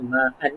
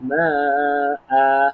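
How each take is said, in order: First: The word ends with an n sound. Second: The word ends with a long vowel. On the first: The speaker calls it wrong. "kita tak baca dengan tanwin ma'an lah" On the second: The speaker calls it right. "kena cukupkan dua harakat"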